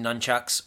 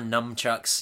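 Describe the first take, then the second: First: The first syllable ends in an n sound. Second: The first syllable ends in an m sound. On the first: This is the usual form of the word. The speaker calls it right. "Our friend Andrew didn't know that nunchucks was the word" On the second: This is how a friend mistakenly says it. The speaker calls it wrong. "or numchucks, if you're our friend Andrew"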